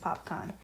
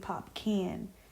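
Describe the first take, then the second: First: The second syllable has a long 'ah' vowel. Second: The second syllable rhymes with 'can'. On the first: The speaker calls it right. "now I know that it's Popcaan" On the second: The speaker calls it wrong. "I used to mispronounce mispronunciate his name. Um, I used to say [name]"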